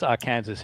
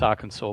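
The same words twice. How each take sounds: First: The ending is said like the word Kansas. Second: The ending is said like the word saw. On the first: This is the speaker's own way of saying it. "but it's Arkansas in my uh, language" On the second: This is the usual way of saying it. "I know it's Arkansas"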